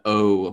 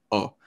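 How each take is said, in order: First: "O" drawn out with rounded lips, like "oh"; long rounded O. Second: "O" cut short and open, like "aw". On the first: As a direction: round and lengthen the vowel in "O". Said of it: "a lot of rounding and a little bit of a longer". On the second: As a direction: keep "O" short, with hardly any lip rounding. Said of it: "kind of a shorter, more open". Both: Shown as a demonstration.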